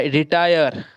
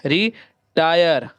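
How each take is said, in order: First: Said in the usual way. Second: रिटायर slowly broken as री, then टायर; split syllables. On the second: Shown as a demonstration. Teacher breaking retire up for learners, slow split syllables. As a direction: draw out री, pause, then say टायर.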